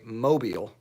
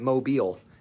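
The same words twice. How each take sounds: First: The stress is on the first syllable. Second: The stress is on the last syllable. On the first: The speaker calls it wrong. "which is wrong" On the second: The speaker calls it right. "where the emphasis is on the last syllable"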